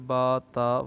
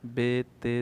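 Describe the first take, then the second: First: The letter names are said with Arabic pronunciation. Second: The letter names are said with Urdu pronunciation. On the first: The speaker calls it right. "बल्कि बा ता वगैरह पढ़ना है" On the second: The speaker calls it wrong. "Urdu तलफ़ुज़ यानी बे ते से इस तरीके से नहीं पढ़ना है"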